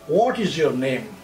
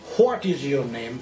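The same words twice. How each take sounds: First: What is said without an h sound. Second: What is said with an h sound. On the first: The speaker calls it right. "এইচ এর উচ্চারণটা বাদ দিয়ে" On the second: The speaker calls it wrong. "নট"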